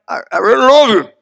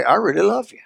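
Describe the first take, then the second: First: Halting husband forcing out "I really love you"; hesitant first try. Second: Easy, sincere "I really love you" with a slight lift; husband finally meaning "I really love you"; straight-faced sincere. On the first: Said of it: "at the first, you gotta say it like". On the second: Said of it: "look at him straight face and say". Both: Retold or imitated.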